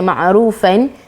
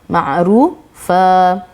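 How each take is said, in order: First: The word ends with an n sound. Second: The word ends with a lengthened a vowel. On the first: The speaker calls it wrong. "kita tak baca ma'rufan" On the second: The speaker calls it right. "kita baca ma'rufa"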